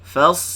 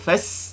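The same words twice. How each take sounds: First: The s sound is thick and heavy. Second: The s sound is thin and light. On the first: The speaker calls it right. "sa tebal" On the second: The speaker calls it wrong. "Jangan sebut fas, itu sin"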